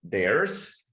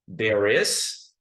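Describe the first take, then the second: First: It is squeezed into one short syllable. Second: It is said as two separate full words.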